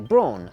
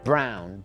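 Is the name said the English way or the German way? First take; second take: English; German. First: It is said the way the English say it. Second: It is said like the word brown.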